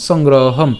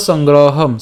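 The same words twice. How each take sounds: The two takes are said the same way.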